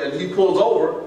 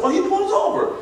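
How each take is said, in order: First: Said in the usual way. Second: Much higher, amused disbelief; retelling his surprise at the driver stopping, amused; mock surprise. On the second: Sing it up high like you can't believe it. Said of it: "I said".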